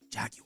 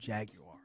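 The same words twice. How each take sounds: First: It is said in a British accent. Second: It is said in an American accent.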